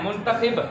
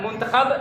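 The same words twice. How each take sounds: First: मुंतखिब ending in "-khib"; short i after the kh in मुंतखिब; mispronunciation demo. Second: मुंतखब ending in "-khab"; short a after the kh in मुंतखब; correct pronunciation. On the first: Teacher showing pupils the error, mispronunciation demo. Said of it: "गलत है". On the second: Teacher showing pupils the fix, correct pronunciation. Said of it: "दुरुस्त है". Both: Shown as a demonstration.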